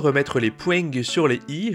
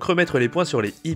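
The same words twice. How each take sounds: First: It is said with a southern French accent. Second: It is said with a neutral French accent.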